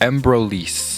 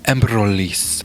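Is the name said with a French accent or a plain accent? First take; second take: plain; French. First: It is said in a plain, unaccented way. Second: It is said with a put-on French accent.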